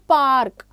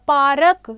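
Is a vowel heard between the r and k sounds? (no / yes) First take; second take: no; yes. First: The r runs straight into k, no vowel. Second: An extra vowel is heard between r and k. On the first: The speaker calls it right. "लेकिन हम क्या बोलते हैं" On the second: The speaker calls it wrong. "वो क्या बन जाएगा"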